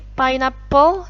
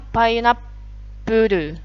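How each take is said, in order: First: It is pronounced in the English way. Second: It is pronounced the Japanese way, with added vowels. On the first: "Pineapple jadinya" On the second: "jadinya pineapple"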